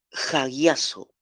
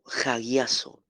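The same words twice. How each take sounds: First: Hagiazo drawn out slowly as ha-GYAH-so; slow careful pronunciation. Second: Said in the usual way. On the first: Shown as a demonstration. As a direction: say Hagiazo slowly, syllable by syllable, for the class. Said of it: "¿Cómo se escribe?". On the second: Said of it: "Es hagiazo".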